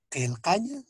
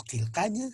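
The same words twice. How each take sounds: First: "kelcaña" higher, each k far back in the throat; careful postvelar Q. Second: Said in the usual way. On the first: Shown as a demonstration. Teacher modelling the Aymara word for writing, careful Q. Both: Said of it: "se pronuncia así".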